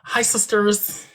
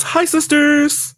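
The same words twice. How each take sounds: First: Slow, higher, drawn-out greeting; James Charles greeting. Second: Much higher, louder, slow sing-song greeting; James Charles greeting. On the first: Vlogger greeting fans, slow and higher. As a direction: stretch out the sisters greeting. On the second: Friend outdoing her greeting fans, much higher. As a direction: push the greeting way up and stretch it. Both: Retold or imitated. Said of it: "James Charles".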